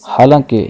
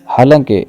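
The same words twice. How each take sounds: Both takes have the same delivery.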